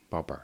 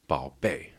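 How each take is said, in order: First: The word ends with an r-sound. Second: The word ends without an r-sound. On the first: "if you love someone, you gotta R-hua" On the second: "Baby, 宝贝, but here they're adding the R"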